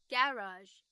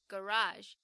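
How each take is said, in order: First: It is said with a British pronunciation. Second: It is said with an American pronunciation. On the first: "英式英文的话就会跟 buffet 一样，我们要把重音放到前面念成" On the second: "以美式发音来说，你的车库会念成"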